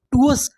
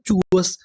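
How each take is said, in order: First: टूअस said with a t sound, the wrong way; wrong pronunciation. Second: चूअस said with a ch sound, the right way; correct pronunciation. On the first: Teacher showing students the wrong reading टूअस. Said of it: "ये गलत हो जाएगा". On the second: Teacher showing students the correct reading चूअस. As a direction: say चूअस with a ch at the start. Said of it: "उसे पढ़ते हैं चूअस". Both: Shown as a demonstration.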